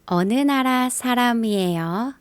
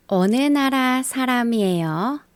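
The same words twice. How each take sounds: The two takes are said the same way.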